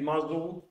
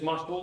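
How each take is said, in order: First: The S is a voiced buzz. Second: The S is a voiceless hiss. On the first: This is the English voiced S. "que es el bozal" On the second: This is the Spanish S. "nuestra S"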